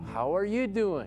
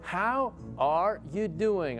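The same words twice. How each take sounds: First: The phrase is said a bit faster. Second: The phrase is said at a normal speed.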